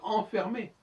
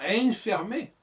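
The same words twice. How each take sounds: First: The N is silent, only a nasal vowel. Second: The N is pronounced as a separate consonant. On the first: The speaker calls it right. "on dit enfermé" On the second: The speaker calls it wrong. "on dit pas enfermé"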